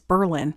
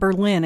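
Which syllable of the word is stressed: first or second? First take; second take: first; second. First: The stress is on the first syllable. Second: The stress is on the second syllable. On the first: The speaker calls it right. "that is the correct pronunciation" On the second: The speaker calls it wrong. "It's not Berlin"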